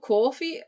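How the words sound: The first vowel is a strong rounded O. "the Scottish will say it with a very strong O"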